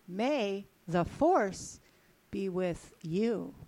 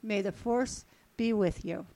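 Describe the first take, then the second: First: It is said with extra feeling. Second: It is said fairly flatly.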